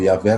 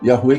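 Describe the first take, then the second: First: The name is said the usual Brazilian way. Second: The name is said the English-speaking way. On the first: This is the common form used in Brazil. "como a gente fala mais aqui no Brasil" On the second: This is the form used mostly by English speakers. "quem fala mais são os falantes de inglês, e é a pronúncia mais correta"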